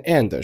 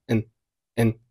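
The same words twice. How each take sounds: First: Said in the usual way. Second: "and" reduced to a slight "n"; weak form. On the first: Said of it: "后面的and是弱读". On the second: Shown as a demonstration. Teacher showing learners the weak "and", said as "n". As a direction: shrink "and" to just "n". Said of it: "and是弱读，读成了n".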